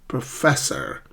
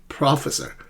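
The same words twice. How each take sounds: First: "professor" as pro-FESS-or; correct stress. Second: "professor" as PRAH-fessor; mis-stressed PRAH-fe-sor; students' wrong stress. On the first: Shown as a demonstration. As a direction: land on FESS in "professor", weak first syllable. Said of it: "the correct pronunciation of this word". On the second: Retold or imitated. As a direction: imitate the mistake, stressing PRO in "professor". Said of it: "they keep saying professor".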